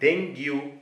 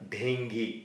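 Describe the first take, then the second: First: The word ends with a 'yoo' sound. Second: The word ends with an 'ee' sound. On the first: It follows the English letters. The speaker calls it wrong. "ಇಲ್ಲಿರುವ ಅಕ್ಷರಗಳಲ್ಲಿ ಅನುಗುಣವಾಗಿ ಡೆಂಗ್ಯೂ ಅಂತ ನಾವು ಉಚ್ಚರಿಸುತ್ತೇವೆ" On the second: It follows medical usage. The speaker calls it right. "ಈ ಪದದ ಸರಿಯಾದ ಉಚ್ಚಾರ"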